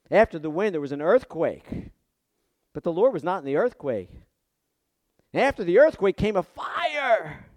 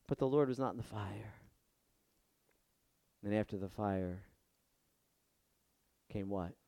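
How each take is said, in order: First: Proclaimed. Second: Hushed. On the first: Preaching Elijah's wind, quake, fire. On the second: Builds to the still voice. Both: Shown as a demonstration.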